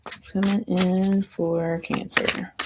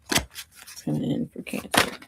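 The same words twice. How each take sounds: First: Said in the usual way. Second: Slow quiet whisper. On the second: Pretend. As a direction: whisper it slowly. Repeats the line, second time whispered.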